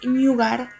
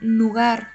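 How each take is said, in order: First: The word begins with a palatal ny sound. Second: The word begins with a plain n sound. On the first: The speaker calls it wrong. "una tendència molt general a dir nyugar" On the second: The speaker calls it right. "heu d'anar amb compte amb la pronunciació"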